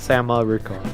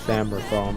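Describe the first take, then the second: First: The vowel after 'Sam' is pronounced. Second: The vowel after 'Sam' is left out. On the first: "If I am saying that the second A" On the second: "I kind of chop off the A"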